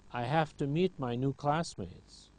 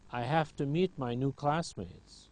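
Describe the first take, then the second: First: The words are shortened and run together. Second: The words are shortened and run together.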